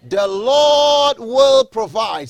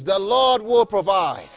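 First: Very slow, higher and louder, each word stretched; drawn-out proclamation. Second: Said in the usual way. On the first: Shown as a demonstration. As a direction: proclaim it for the congregation to echo. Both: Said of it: "Say it with me".

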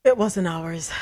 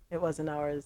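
First: Said in the usual way. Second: Softer, lower aside; muttered to herself; quiet rueful repeat. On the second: Real, not acted. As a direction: drop the voice, a little rueful.

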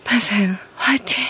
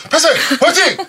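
First: Sexy breathy whisper; breathy vintage purr. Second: Shouted high cheer; hyped cheer. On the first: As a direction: breathe it out seductively. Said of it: "그 섹시야?". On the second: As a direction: cheer it out loud. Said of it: "섹시한 목소리로 폐생 화이팅 부탁드립니다". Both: Acted.

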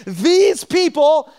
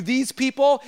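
First: "these people" drawn out slow, louder and higher; stern these people. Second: Said in the usual way. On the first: Shown as a demonstration. Preacher showing God's disapproving tone, stressing "these people". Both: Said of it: "if God's calling you "these people," it's not good".

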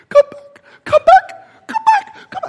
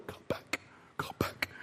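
First: High, loud, strained call; high-pitched calling after rescuers; straining cry for help. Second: Barely voiced, very soft cry for help; weak whispered plea; faint whispered call. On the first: Acted. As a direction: push a weak voice up into a high yelp. Acting survivor's calls growing stronger. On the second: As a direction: call out with no voice left, almost a whisper. Acting stranded survivor's faint calls.

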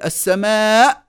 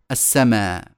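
First: السماء ending in a sharp glottal stop, higher; final hamza sounded. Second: السماء ending on open long aa; final hamza dropped. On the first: Teacher showing the original, final hamza sounded. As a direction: close the throat at the end of السماء. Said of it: "فبدلا من أن تقول". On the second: Teacher showing deletion, السماء without final hamza. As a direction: leave the end of السماء open, no catch. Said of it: "احذف وتوكل على الله، فقول". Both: Shown as a demonstration.

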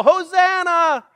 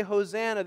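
First: High, loud, drawn-out cry; yelled Hosanna. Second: Said in the usual way. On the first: Retold or imitated. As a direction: yell it like someone overboard. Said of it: "you would yell". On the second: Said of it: "they didn't just say".

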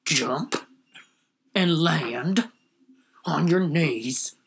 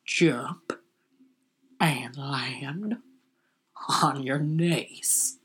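First: Lightly voiced tough cop, very slow. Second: Low, whispered, very slow cop order; tough cop. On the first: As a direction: drag the order out like a cop. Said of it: "Here's my impression of every cop". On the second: Retold or imitated. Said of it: "here's my impression of a cop".

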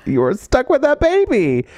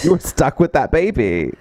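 First: Put-on "You're stuck with that baby" pitched way up, slow; high emphatic repeat. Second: Said in the usual way. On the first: Shown as a demonstration. Friend drives home the point about the baby, high and slow. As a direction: repeat it higher and slower for emphasis.

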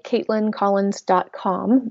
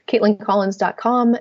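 First: Slowly, each word clear; slow and careful. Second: Said in the usual way. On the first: Shown as a demonstration. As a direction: spell out the web address slowly. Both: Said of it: "My first name is spelled".

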